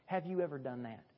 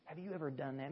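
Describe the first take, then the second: First: Said in the usual way. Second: Softer, hushed echo of the question; a quiet, personal second asking; softer repeat. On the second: Real, not acted. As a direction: ask it again gently and quietly. Repeated altar-call question.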